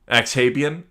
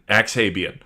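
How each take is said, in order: First: Axhabian with a puzzled rising tune; questioning Axhabian. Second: Axhabian with a settled falling tune; flat statement Axhabian. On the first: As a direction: ask "Axhabian?" rising at the end. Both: Shown as a demonstration. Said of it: "repeats the odd word".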